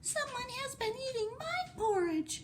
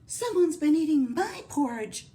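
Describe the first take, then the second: First: It is said in a tiny, small voice. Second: It is said in a medium, mellow voice.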